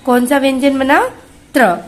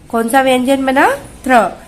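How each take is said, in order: Both takes have the same delivery.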